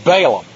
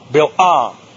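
First: The first syllable has an 'ay' vowel. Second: The first syllable has a short 'i' vowel. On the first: This is the usual everyday way of saying it. "we say Balaam" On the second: This is how the name is properly pronounced. "this name is pronounced Bil-Am"

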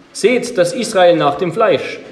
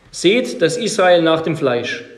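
No difference in how they are said.

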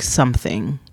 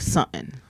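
First: The word is said fully, every sound pronounced. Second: The word is said clipped, sounds cut off. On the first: "It's not like something" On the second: "the words get cut off. It's more like something"

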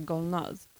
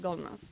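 First: The name ends in a voiced z sound. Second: The name ends in a voiceless s sound. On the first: This is the original Persian way to say the name. "egentligen säger du så här Golnaz" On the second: This is the way Swedes usually say the name. "på svenska har alla alltid kallat mig för Golnaz"

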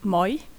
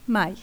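First: The vowel is dark, closer to 'oi'. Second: The vowel is bright, a clear 'ai'. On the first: "Ich sage im Dialekt Moi" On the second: "auf Hochdeutsch heißt das Mai"

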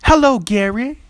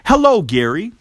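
First: It is said in an imitated woman's voice. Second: It is said in his own normal voice.

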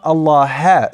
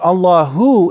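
First: The word ends with an 'ah' vowel. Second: The word ends with an 'oo' vowel. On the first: The speaker calls it wrong. "it's not Allaha, it's not a fatha" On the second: The speaker calls it right. "So it's Allahu, rather it's a dhamma"

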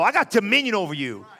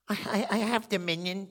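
First: It is said boldly and confidently. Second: It is said hesitantly and timidly.

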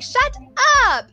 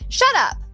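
First: It sounds surprised and drawn out. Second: It sounds angry and short.

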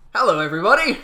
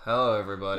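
First: It is said with moderate, balanced energy. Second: It is said with low, subdued energy.

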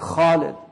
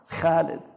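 First: The first consonant sounds heavy and emphatic. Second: The first consonant sounds light, not emphatic. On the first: The speaker calls it right. "say خالد because it's حرف مفخمة" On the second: The speaker calls it wrong. "don't say it like the Arabs say it now"

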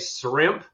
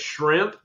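First: The word begins with a plain s sound. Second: The word begins with a clear sh sound. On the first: The speaker calls it wrong. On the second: The speaker calls it right.

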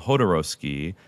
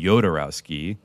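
First: The J is sounded as Spanish speakers say it. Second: The J is sounded as German speakers say it. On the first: "Spanish speaking countries call him Hodorowsky" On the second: "that's what a J would be in German"

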